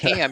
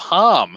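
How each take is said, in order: First: The vowel sounds like the one in 'cat'. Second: The vowel sounds like the one in 'cup'. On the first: The speaker calls it right. "there's no way this kid's actual name is pronounced Ham" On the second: The speaker calls it wrong. "I'm gonna go Hum"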